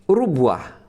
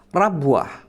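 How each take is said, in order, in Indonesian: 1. Vokal pertama adalah u. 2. Vokal pertama adalah a. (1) "dengan didommah ra-nya" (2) "dengan fathah pada huruf ra-nya"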